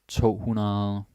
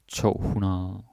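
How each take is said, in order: No difference in how they are said.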